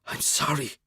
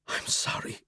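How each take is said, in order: First: Softer, half-voiced, ashamed; soft voiced apology. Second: Breathless unvoiced whisper. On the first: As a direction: say it again just above a whisper. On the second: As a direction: barely breathe the apology. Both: A narrator's reading. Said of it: "My voice comes out a whisper".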